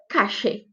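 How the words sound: The ll sounds like a hissing sh sound. This is also heard in Argentina and Uruguay. "Como se fosse um X mesmo"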